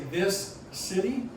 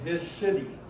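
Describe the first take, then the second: First: Two separate S sounds are pronounced. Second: The two S sounds merge into one. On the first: The speaker calls it wrong. "Do you have two S sounds in there?" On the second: The speaker calls it right. "We run that S of this"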